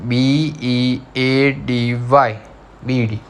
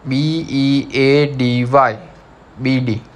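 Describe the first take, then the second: First: Very slow letter by letter; slower spelling. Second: Slowly spelled letters; spelling out letters. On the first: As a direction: drag each letter out for the class. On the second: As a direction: spell it out for the class. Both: Shown as a demonstration. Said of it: "Now number second is".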